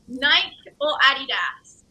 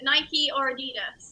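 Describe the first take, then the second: First: It is said in her own non-American accent. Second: It is said in an American accent.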